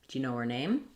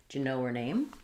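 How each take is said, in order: Both takes have the same delivery.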